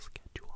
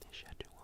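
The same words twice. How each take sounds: First: The word begins with a hard sk sound. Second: The word begins with an sh sound. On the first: "like with the hard C H rather than the sh sh sh sh sound" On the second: "I have never heard anybody in my real life say schedule"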